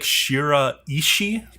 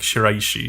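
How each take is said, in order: First: The name is said slowly, syllable by syllable. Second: The name is said quickly, syllables run together. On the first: "technically like" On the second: "you would pronounce it quickly"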